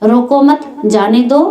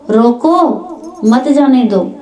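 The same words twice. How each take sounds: First: "रोको मत" together, then "जाने दो"; pause after मत. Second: "रोको" rising alone, pause, "मत जाने दो"; pause after रोको. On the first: Contrasting two meanings for the listeners, pause after मत. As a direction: join मत onto रोको, separate जाने दो. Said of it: "लेकिन बात में फर्क पड़ गया". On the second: Showing listeners the opposite meaning, pause after रोको. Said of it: "ऐसे बोलने में फर्क पड़ जाता". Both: Shown as a demonstration.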